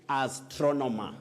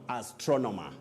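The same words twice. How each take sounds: Both takes have the same delivery.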